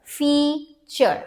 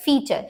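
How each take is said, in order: First: "Feature" split as fea... ture; broken into syllables. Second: Said in the usual way. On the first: Shown as a demonstration. Teacher breaks the word for learners, "Feature" in two syllables. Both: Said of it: "Let's break this here".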